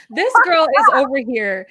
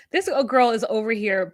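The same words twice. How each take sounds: First: High, loud, laughing start; laughing exclamation. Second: Said in the usual way. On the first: Real, not acted. Co-host mocking the bride in wedding dresses, laughing loudly. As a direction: burst out amused, raised voice.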